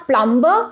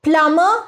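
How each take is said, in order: First: "plumber" said "PLUM-buh", b sounded; "plumber" with an audible b after the m; wrong pronunciation. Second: "Plumber" said "PLUM-uh", silent b; "Plumber" with m running straight into the ending; correct pronunciation. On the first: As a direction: pronounce the b in "plumber". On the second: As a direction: say "Plumber" without any b. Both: Shown as a demonstration. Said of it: "and not plumber".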